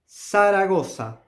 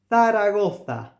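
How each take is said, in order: First: The z is pronounced as an s sound. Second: The z is pronounced as a th sound. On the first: This is the Latin American pronunciation. "Also with the S" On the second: This is the pronunciation of Spain. "according to the Spain to the to the Spain Spanish pronunciation"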